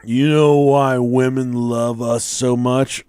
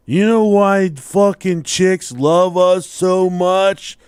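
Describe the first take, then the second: First: Put-on slow drunken musing; drunk brother. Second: Put-on loud, high, slow drunken demand; drunk brother. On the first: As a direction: imitate a drunk drawing out a question. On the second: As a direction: insist on it like a drunk, every word stretched. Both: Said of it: "he was drunk and fall".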